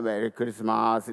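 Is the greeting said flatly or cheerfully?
flatly. It is said flatly, without a smile.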